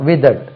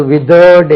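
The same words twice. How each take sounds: First: Said in the usual way. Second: "withered" with a long, drawn-out, stressed second syllable, "with-UURD"; mispronounced withered. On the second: Shown as a demonstration. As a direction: stretch the end of "withered" wrongly into a long "-urrd". ("withered" இரண்டாம் அசையை நீட்டி, தவறான உச்சரிப்பு) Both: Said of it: "withered என்று உச்சரிக்கக்கூடாது".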